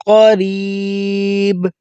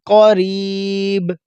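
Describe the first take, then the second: Both takes have the same delivery.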